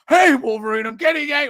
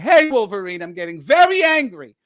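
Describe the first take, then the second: First: It is said in a plain voice. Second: It is said in a flamboyant voice.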